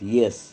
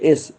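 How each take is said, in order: First: The letter name begins with a y sound. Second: The letter name begins with a plain vowel. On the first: The speaker calls it wrong. "काही लोक एसचा येस म्हणतात" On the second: The speaker calls it right. "पण आपल्याला प्रोनाऊन्स करायचं असतं एस"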